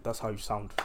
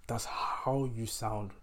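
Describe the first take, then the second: First: Said in the usual way. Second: Slow, with a long stretched "how"; drawn-out emphasis. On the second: Real, not acted. Telling All Lives Matter people how they sound, slow stress on "how". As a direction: stretch out the word "how" to drive it home.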